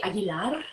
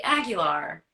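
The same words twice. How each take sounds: First: Aguilar said the Spanish way, with a rolled final r; Spanish-accented Aguilar; Spanish pronunciation. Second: Said in the usual way. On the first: Shown as a demonstration. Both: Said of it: "Should I stay with the roots".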